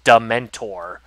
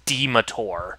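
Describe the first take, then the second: First: The word has an 'n' sound before 't'. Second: The word has no 'n' sound before 't'. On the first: The speaker calls it right. "it was pronounced Dementor" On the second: The speaker calls it wrong. "I pronounced it as Demetor"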